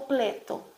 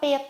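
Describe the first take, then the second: First: The r is replaced with an l sound. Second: The r is dropped, leaving plain p. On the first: "ou pleto" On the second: "ela não vai mais falar peto"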